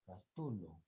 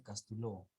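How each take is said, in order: First: "Castulo" with a raised peak on TU; acento corregido. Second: "Castuló" stressed on the last syllable, -LÓ; acento mal puesto al final. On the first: Shown as a demonstration. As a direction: model "Castulo" stressed on the middle syllable. («Castulo» con fuerza en TU, luego cae) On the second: Retold or imitated. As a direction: imitate the misreading "Castuló", ending on LÓ. («Castuló» mal leído, con fuerza en LÓ) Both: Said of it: "Donde dice Castuló".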